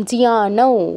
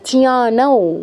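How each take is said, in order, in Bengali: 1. শব্দটি অনুনাসিক স্বরে শেষ হয়। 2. শব্দটি অনুনাসিক স্বরে শেষ হয়।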